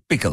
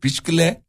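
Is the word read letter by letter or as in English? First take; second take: as in English; letter by letter. First: It is said the English way, as pickle. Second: It is read letter by letter, as spelled. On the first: This is how the word is pronounced. "Ama okunuşu pickle" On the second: This is how the word is written. "Yazılışı piçkile"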